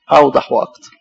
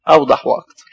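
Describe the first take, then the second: First: Said in the usual way. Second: A hushed whisper of the answer. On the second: Acted. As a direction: breathe "أوضح وأكتر" in a whisper. Answering his own question. (إجابة هامسة)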